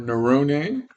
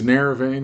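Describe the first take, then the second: First: The name has its original, non-English pronunciation. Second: The name has an Americanized English pronunciation. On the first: "that's the authentic pronunciation of my my last name" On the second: "we've Americanized it to Neravane, which is fine"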